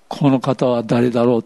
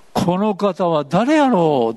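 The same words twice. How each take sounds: First: Said in the usual way. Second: 「この方は誰やろう」 drawn out very slowly, falling in wonder; wondering aloud. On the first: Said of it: "今日のテーマは". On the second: Retold or imitated. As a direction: marvel at who he is, slowly. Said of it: "って言ったんですよ". (「この方は誰やろう」をゆっくり驚嘆して)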